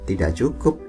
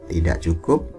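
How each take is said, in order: The two takes are said the same way.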